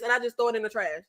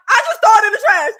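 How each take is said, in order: First: Said in the usual way. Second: Loud emphatic. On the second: Real, not acted. Repeats louder, emphatic.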